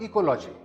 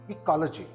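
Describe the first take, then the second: First: The stress is not on the second syllable. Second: The stress is on the second syllable. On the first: The speaker calls it wrong. "This word is not ecology" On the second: The speaker calls it right. "The stress is on the second syllable"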